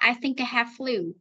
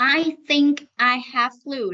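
First: The sentence is spoken quickly. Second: The sentence is spoken slowly. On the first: "còn đọc nhanh là" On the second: "Đấy là đọc chậm"

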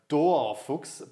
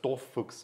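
First: The O in the first syllable is long. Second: The O in the first syllable is short. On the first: The speaker calls it wrong. "they read it and they say like" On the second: The speaker calls it right. "but it's just Dorfuchs, so it's short O"

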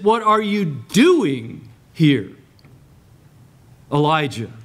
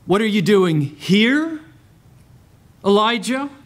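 First: The stress falls on the word doing. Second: The stress falls on the word here.

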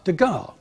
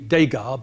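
First: The first syllable sounds like 'duh'. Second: The first syllable sounds like 'day'. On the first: The speaker calls it right. "but Degas" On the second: The speaker calls it wrong. "as there is no acute accent over the E, it shouldn't be Degas"

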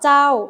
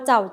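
First: The syllable is said with a falling tone. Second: The syllable is said with a low tone. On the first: "โท" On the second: "เอก"

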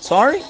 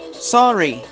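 First: The voice rises at the end. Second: The voice falls at the end. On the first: It asks the other person to repeat. "Ou dependendo da entonação" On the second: It is an apology.

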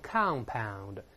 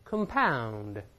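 First: The stress is on the first syllable. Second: The stress is on the second syllable. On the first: It is an adjective meaning made of several parts. "形容词复合的都是compound" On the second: It is a verb meaning to make worse. "这时候动词后置，重音后置"

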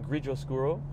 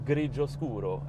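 First: It is said with an anglicized, English-style pronunciation. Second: It is said with an Italian-style pronunciation.

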